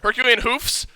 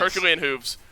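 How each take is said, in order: First: The last word ends with an f sound. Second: The last word ends with a v sound. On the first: The speaker calls it right. "but it's an F" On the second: The speaker calls it wrong. "I did it again"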